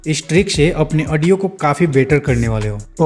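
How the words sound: It is said in a polished, professional way.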